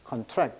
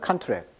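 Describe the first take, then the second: First: The stress is on the second syllable. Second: The stress is on the first syllable. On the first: It is used as a verb. "동사할 때는 contract 달라요" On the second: It is used as a noun. "명전 동법칙이라고 해가지고 강세가 이름절에 오면"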